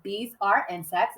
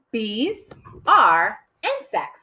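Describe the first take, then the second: First: Said in the usual way. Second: Very slow, each word set apart. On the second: Shown as a demonstration. Teacher counting out a short first sentence, word by word. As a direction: dictate it slowly, word by word. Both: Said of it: "It's only three words".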